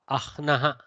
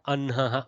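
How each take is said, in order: First: The h sound comes before the n. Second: The h sound comes after the n.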